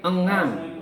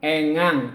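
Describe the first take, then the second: First: The first vowel is an ordinary, plain e. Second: The first vowel is a clear, distinct e. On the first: The speaker calls it right. "tapi engang. ... e biasa" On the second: The speaker calls it wrong. "Jadi bukan engang"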